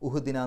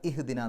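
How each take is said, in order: First: The word begins with a 'u' vowel. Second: The word begins with an 'i' vowel. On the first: The speaker calls it wrong. "ഉഹ്ദിന എന്ന് പറയില്ല" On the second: The speaker calls it right. "ഇഹ്ദിന എന്നാണ് പറയാം"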